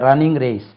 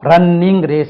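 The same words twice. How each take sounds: First: The n sound is said once and short. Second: The n sound is doubled and held long. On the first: The speaker calls it right. "ஒரு letter உச்சரித்தா போதும்" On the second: The speaker calls it wrong. "இல்லை"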